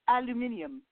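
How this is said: It is said with five syllables, British style. "one of my coworkers that's from the UK, he calls"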